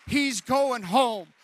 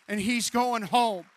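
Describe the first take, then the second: First: Drawn out even more, loud and high; slower, heavier repeat. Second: Slow, loud and drawn out; slow emphatic. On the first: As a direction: hammer home "home" with the slowest stress. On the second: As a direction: lean on every word. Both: Retold or imitated. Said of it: "this doctor is saying".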